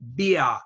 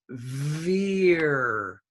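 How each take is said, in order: First: The word begins with a b sound. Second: The word begins with a v sound. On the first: The speaker calls it wrong. "some of you were saying beer" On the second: The speaker calls it right. "but it's veer"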